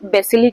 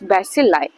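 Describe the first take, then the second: First: The word ends with an 'ee' sound. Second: The word ends with an 'eye' sound. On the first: The speaker calls it wrong. "आप इसको कैसे pronounce करते हैं, बेसिली करते हैं कि क्या करते हैं" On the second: The speaker calls it right. "It's बैसिलाई"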